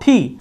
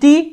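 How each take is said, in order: First: The T is said with a puff of air. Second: The T is said without a puff of air. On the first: The speaker calls it right. "কিন্তু এখন থেকে এটাকে বলবো ঠি" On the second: The speaker calls it wrong. "এতদিন পর্যন্ত এটাকে বলেছি টি"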